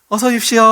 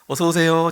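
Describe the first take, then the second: First: It is said at a raised, high pitch. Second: It is said at a normal pitch.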